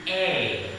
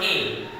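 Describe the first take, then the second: First: The vowel sounds like the one in able. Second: The vowel sounds like the one in apple. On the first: The speaker calls it right. "The pronouncement is A" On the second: The speaker calls it wrong. "but this is not right. Why you pronounce A?"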